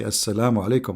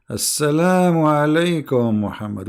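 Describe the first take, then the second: First: Said in the usual way. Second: "Assalamu alaikum" drawn out slowly and loaded; pointed greeting. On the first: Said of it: "he did not say "Assalamu alaikum" only". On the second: Shown as a demonstration. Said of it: "we are not hearing the voice".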